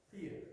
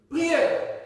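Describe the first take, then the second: First: Soft low echo of the word; quiet repeat. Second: Loud high call-out; shouted answer. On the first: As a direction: repeat it back softly. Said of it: "repeats answer quietly". (répétition à voix basse) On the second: (réponse criée) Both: Real, not acted.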